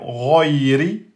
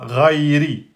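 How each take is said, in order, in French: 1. La première voyelle est sombre et fortement emphatique. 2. La première voyelle est ouverte et légèrement emphatique. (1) "vous l'emphatisez bien et ça fait roiri" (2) "vous l'emphatisez moyen, ça fait ra, rairi"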